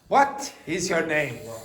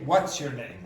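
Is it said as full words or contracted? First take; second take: full words; contracted. First: Every word is said separately and fully. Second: What is is joined into one syllable. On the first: The speaker calls it wrong. "that's very robotic" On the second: The speaker calls it right. "you have to say"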